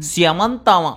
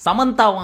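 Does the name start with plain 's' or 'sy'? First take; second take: sy; plain s. First: The name begins with an 's' plus 'y' glide. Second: The name begins with a plain 's' sound. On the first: "எஸ்க்கு அப்புறம் ஒய்ய போட்டாங்க, அதனாலதான் சியமந்தா அப்படின்னு சொன்னேன்" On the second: "இல்ல இல்ல"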